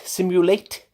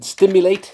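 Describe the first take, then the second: First: "simulate" said carefully, no t after the s; self-correction. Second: "stimulate" blurted louder, with a t after the s; wrong word "stimulate", stressed and loud; slip of the tongue. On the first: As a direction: fix it to "simulate" cleanly. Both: Real, not acted.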